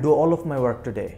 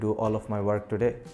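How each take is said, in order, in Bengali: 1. এটি প্রাণবন্তভাবে, উচ্চ এনার্জি নিয়ে বলা হয়েছে। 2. এটি একঘেয়েভাবে পড়া হয়েছে, কোনো এনার্জি নেই। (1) "you have টু বি energetic" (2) "without any energy"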